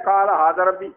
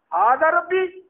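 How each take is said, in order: First: "قال ھذا ربی" lower and falling as a plain claim; flat statement. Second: "ھذا ربی" pitched high, rising on "ربی"; doubtful question: "ھذا ربی؟". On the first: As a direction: state it as settled fact. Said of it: "ایک ہے". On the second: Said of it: "کیا یہ میرا رب ہے؟". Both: Shown as a demonstration.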